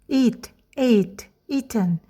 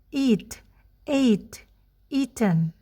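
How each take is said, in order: First: The words are said at a faster pace. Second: The words are said at a slower pace.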